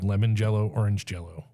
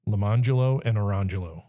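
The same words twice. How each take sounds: First: Lemon jello, orange jello said as the everyday dessert words; as spelled. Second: Lamangelo and Orangelo said luh-MON-juh-lo and uh-RON-juh-lo; unexpected name pronunciation. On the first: Revealing the spelling to friends, lemon jello and orange jello as ordinary words. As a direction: say LEMON JELL-o, ORANGE JELL-o plainly, as written. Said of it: "Literally spelled". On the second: Telling friends the twins' names, Lamangelo and Orangelo stressed on MON and RON. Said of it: "Literally spelled lemon jello". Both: Shown as a demonstration.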